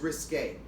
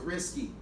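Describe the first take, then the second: First: The word ends with a 'kay' sound. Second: The word ends with a 'kee' sound. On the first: The speaker calls it right. "The word is risque" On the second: The speaker calls it wrong. "I hate when people pronounce it risky"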